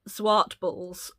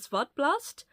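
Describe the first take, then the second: First: The name is given a plain English reading. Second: The name is given a Dutch-style pronunciation. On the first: The speaker calls it wrong. "I would have called it uh, Zwartballs, which is how it's written" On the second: The speaker calls it right. "I believe you pronounce it"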